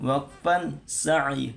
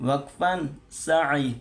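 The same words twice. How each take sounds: No difference in how they are said.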